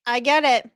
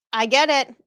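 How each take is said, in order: Both takes have the same delivery.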